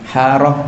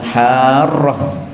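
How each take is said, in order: First: The r sound is short and single. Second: The r sound is held and doubled. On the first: The speaker calls it wrong. "Haroh tidak bisa" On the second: The speaker calls it right. "ditampakkan roknya dengan syaddah itu"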